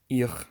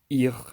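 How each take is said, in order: No difference in how they are said.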